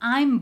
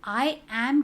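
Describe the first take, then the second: First: It is said as one contracted word. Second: It is said as two full separate words. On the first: The speaker calls it right. "आई एम बोलो, क्योंकि वो थोड़ा ज़्यादा natural कर sound होता है" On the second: The speaker calls it wrong. "आई एम के जगह"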